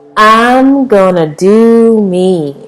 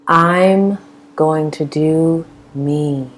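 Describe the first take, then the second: First: It is said with bold, sassy attitude. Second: It is said in a plain, neutral way. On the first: "say it with attitude" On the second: "Say it again"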